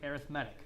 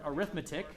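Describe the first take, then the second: First: It is pronounced in the adjective form. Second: It is pronounced in the everyday noun form. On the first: It describes a kind of sequence. "because we're using it as an adjective here to describe sequences, we say arithmetic" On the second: It names the branch of math. "it's spelled the same way as the word arithmetic"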